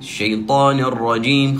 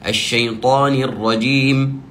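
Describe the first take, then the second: First: The vowel after the n sounds close to a. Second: The vowel after the n sounds clearly like i. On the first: The speaker calls it wrong. "تكون أقرب إلى الفتح من الكسر ... خطأ" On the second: The speaker calls it right. "بهذه الطريقة"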